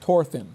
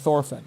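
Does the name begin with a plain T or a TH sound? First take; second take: plain T; TH. First: The name begins with a plain T sound. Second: The name begins with a TH sound. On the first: This is the modern Scandinavian pronunciation. "In modern Scandinavian languages, the T H is pronounced like a T" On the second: This is the Old Norse pronunciation. "But in Old Norse, there was the T H sound"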